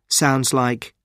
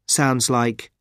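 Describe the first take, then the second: No difference in how they are said.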